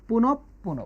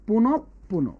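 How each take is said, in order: The two takes are said the same way.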